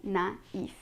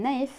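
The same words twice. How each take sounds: First: Naïf split as "na... eef"; two syllables. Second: Naïf squashed into one syllable, "nife"; wrong, one syllable. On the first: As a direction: say naïf with a gap between the vowels. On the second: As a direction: say naïf with the vowels run together. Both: Shown as a demonstration. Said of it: "we're not saying naïf".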